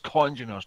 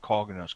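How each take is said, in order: First: The first syllable is said as 'con'. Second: The first syllable is said as 'cog'. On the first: The speaker calls it right. "it's congeners" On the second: The speaker calls it wrong. "not coggeners"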